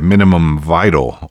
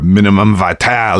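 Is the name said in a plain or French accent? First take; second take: plain; French. First: It is said in a plain English accent. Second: It is said in an exaggerated French accent.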